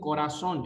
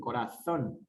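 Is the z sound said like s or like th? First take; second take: s; th. First: The z is said like an s. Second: The z is said like English th, Spain-style.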